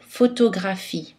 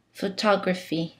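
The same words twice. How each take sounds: First: Photographie with every o kept a full O, syllables equal; no reduction anywhere in photographie; French even syllables. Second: Photography said in English, stress on the second syllable, other vowels reduced; English pronunciation. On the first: Teacher models the French word, full vowels throughout. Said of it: "les O sont prononcés O". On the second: Teacher gives the English counterpart, softer, English stress. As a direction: switch to an English accent for Photography. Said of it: "En anglais ... peuvent changer de prononciation". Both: Shown as a demonstration.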